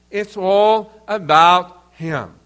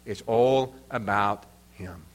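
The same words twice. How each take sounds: First: Louder and slow, all stretched and stressed; emphatic. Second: Much lower and softer, It's all about him said almost under the breath; quiet. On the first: Preacher drives the point home to the congregation, slow and emphatic. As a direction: land it hard, each word weighted. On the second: Preacher quietly sets up the punchline for the congregation. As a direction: let the line drop low and hushed before it returns. Quoting pastor's hymn-book saying. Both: Shown as a demonstration.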